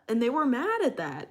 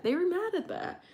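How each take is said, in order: First: Said in the usual way. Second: "mad" lifted high in disbelief; higher incredulous repeat. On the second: Shown as a demonstration. Retelling bullies' reaction, repeated higher in disbelief.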